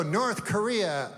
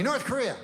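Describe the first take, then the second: First: Slow, weighty news-anchor doom; mock dramatic news voice; ominous media warning. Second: High, small scared whimper of a word; hammed-up terrified husband; mock frightened answer. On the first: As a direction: drag it out like a scary headline. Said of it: "they go". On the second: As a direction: confess the fear like a child. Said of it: "What's the matter, honey".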